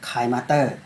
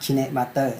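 First: The first part sounds like 'kine', one syllable. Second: The first part sounds like 'kee-neh', two syllables.

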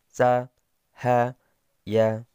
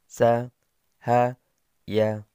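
The two takes are said the same way.

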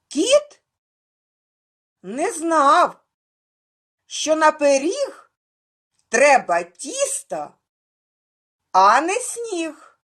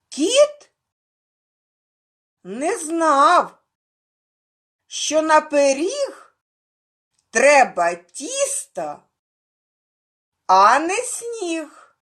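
First: The rhyme is recited at a faster pace. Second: The rhyme is recited at a slower pace.

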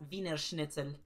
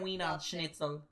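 First: It is pronounced with a German-sounding accent. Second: It is pronounced with an English-sounding accent. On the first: The speaker calls it right. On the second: The speaker calls it wrong.

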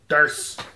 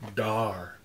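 First: The final S sound is pronounced. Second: The final S sound is left out.

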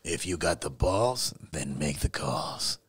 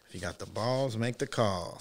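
First: It is said in a put-on voice. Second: It is said in a normal voice.

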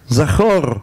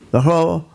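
First: The final r sound is clearly pronounced. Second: The final r sound is swallowed. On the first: The speaker calls it right. "ומבטא את האותיות אות אות" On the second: The speaker calls it wrong. "הוא התרש ובלע אותה"

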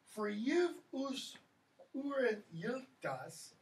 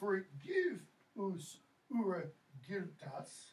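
First: The g sounds are softened to a y sound. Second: The g sounds are said as hard g. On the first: "the palatal" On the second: "the hard j, g"

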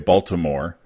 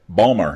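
First: All three syllables are said clearly. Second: The middle sounds are dropped into two syllables. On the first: This is how outsiders say the name. "They don't say Baltimore" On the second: This is how locals say the name. "They say, Balmer, hun"

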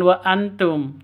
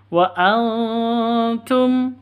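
First: The n is pronounced clearly before the t. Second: The n is hidden in a nasal hum before t. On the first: The speaker calls it wrong. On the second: The speaker calls it right. "siap-siap dengung"

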